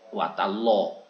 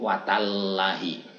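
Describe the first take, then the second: First: The l is heavy, with an o-like vowel. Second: The l is light, with a plain a vowel. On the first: This is the special reading of the word Allah. "ini kan jadi muncul o" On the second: This is how ordinary language would read it. "seandainya kita mengikuti bahasa yang wajar"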